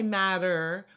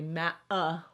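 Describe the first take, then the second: First: The middle T sounds like a soft D. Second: The middle T is dropped with a catch. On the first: This is the American way of saying it. "we say matter" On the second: This is how some British speakers say it. "some of the Brits will say ma uh, like they just totally drop"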